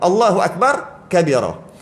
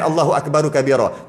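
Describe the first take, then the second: First: The r of akbar ends with no vowel. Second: The r of akbar is followed by u. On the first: This form is reported in hadith. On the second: This form has nicer recitation rules.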